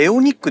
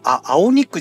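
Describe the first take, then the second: First: The name begins with an 'eh' sound. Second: The name begins with an 'ah' sound. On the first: The speaker calls it right. "エオニックでいいと思う" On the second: The speaker calls it wrong. "アオニックじゃなくて"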